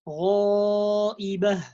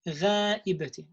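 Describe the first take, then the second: First: The long a vowel is heavy and full. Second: The long a vowel is light and thin. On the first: The speaker calls it right. "the right way of saying that" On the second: The speaker calls it wrong. "making the sound of the alif light when it's heavy"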